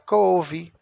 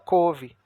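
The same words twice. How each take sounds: First: The vowel glides from o into u. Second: The vowel is a plain o, no u. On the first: The speaker calls it right. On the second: The speaker calls it wrong.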